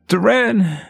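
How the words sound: The name is cried out in a pained voice. "You hear him calling your name in pain"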